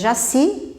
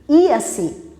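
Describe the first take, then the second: First: The name begins with a 'zh' sound. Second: The name begins with an 'ee' sound. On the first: This is the Portuguese pronunciation. "se pronuncia em português Jaci" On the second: This is the Tupi-Guarani pronunciation. "mas na língua Tupi-Guarani, Iaci"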